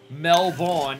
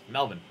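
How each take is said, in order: First: The word is said in full, all syllables. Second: The word is said shortened, syllables dropped. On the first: "Instead of saying Melbourne" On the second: "it's Melbourne"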